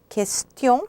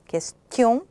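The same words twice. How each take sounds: The two takes are said the same way.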